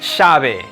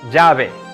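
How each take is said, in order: First: The ll sounds like English sh. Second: The ll sounds like a soft English j. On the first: "The third variation is the sh sound" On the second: "similar to the soft J as in the English name Jack"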